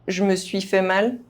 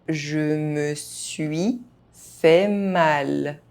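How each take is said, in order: First: The phrase is spoken fast, sounds reduced. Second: The phrase is spoken at normal speed. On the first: This is how native speakers say it. "fast, as a native speaker would do" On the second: This is the pace learners should use. "at a normal pace"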